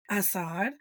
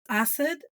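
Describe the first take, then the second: First: Assad with a long open "ah" in the second syllable; ah-sound Assad. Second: Assad as "AH-sud", second vowel reduced; corrected Assad. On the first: Puzzled viewer guessing the actor's name, Assad said with broad "ah". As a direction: say Assad as "ah-SAHD", questioning. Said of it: "if I see an A, it's an ah". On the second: Actor correcting how Americans say his name, Assad as "AH-sud". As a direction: say Assad with a short, weak last syllable. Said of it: "he was like, "It's". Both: Retold or imitated.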